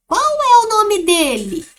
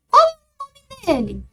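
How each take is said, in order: First: Slow, higher questioning voice with a rise in pitch; a curious person asking the dog's name, louder and slower. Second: Much higher, louder questioning voice; a curious person asking the dog's name, pitched up high. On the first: Teacher reading the question aloud for the class, with a higher questioning voice. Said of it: "Olha a entonação". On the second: Teacher voicing the question in the story, much higher and louder. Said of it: "como está a entonação do texto". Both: Shown as a demonstration.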